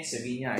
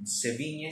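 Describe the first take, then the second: First: Sevilla said se-VEE-nyaa, with a long falling a ending; second try at the pronunciation. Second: Sevilla said se-VEE-nye, ending in a soft e; trying the pronunciation. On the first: Choir teacher retrying the singer's name Sevilla with a long a ending. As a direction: Sevilla retried as se-vi-nyaa, drawing out the last a. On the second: Choir teacher unsure of the singer's name, trying Sevilla with an e ending. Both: Shown as a demonstration. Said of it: "I don't know kung paano siya i-pronounce".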